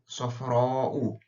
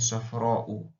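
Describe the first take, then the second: First: The vowel is pulled out and lengthened. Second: The vowel is kept short, not lengthened. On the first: It follows the rules of Quran recitation. "where we will pull" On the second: It is ordinary spoken Arabic. "without the pull"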